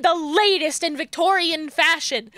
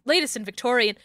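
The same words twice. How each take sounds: First: Disbelieving, pitch raised on latest; incredulous rereading. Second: Said in the usual way. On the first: Real, not acted. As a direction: repeat it as if you can't believe it. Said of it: "what do you mean".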